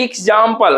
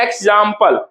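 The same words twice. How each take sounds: First: एग्जांपल begun with an "ee" vowel, in parts; as spelt. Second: एग्जांपल begun with an open "e" vowel, in parts; as spoken. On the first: Teacher showing how it looks written, एग्जांपल with "ee" start. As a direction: start एग्जांपल as "eeg", split up. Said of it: "देखने में लगता है". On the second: Teacher showing what we say, एग्जांपल with "eg" start. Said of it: "कहते हैं". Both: Shown as a demonstration.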